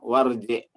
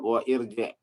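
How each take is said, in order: First: The words are joined, with the vowel dropped. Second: The words are separate, with the glottal vowel kept. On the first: The speaker calls it right. "Tapi disebutnya warji ya" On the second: The speaker calls it wrong. "Idhab wa irji harusnya ya"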